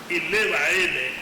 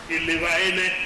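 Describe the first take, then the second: First: The verb is said with a high tone. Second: The verb is said with a low tone. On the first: The action has been completed. "the high tone on the same verb indicates that the action has been completed" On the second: The action is still going on. "the low tone on the uh, uh, on the verb is in I am already cooking"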